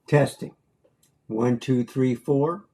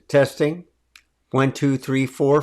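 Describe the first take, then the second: First: The voice sounds echoey, like in a room. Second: The voice sounds clean, without echo.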